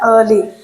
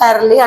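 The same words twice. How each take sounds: First: The word is said with a standard English accent. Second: The word is said with an Indian English accent. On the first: The speaker calls it right. "దీన్ని ఎర్లీ ఎర్లీ అనాలి అనమాట" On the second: The speaker calls it wrong. "మనం Indian ప్రొనౌన్సియేషన్లో ఎర్లీ అంటుంటాం"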